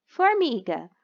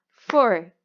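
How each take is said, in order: First: Said in the usual way. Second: Formiga broken into for, mi, ga; syllable by syllable. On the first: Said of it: "fazerem a separação da sílaba". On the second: Shown as a demonstration. Teacher counting three syllables, formiga said with gaps between parts. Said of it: "Também tem três sílabas".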